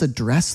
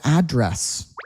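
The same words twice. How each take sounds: First: The stress is on the second syllable. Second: The stress is on the first syllable. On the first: It is the verb. "address as a verb" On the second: It is the noun. "Address as a noun"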